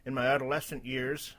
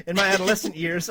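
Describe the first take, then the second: First: A faltering attempt at a droopy dog. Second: Said in the usual way. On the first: Reading a post before giving up, mild droopy dog voice. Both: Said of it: "okay, forget that voice, it's too hard".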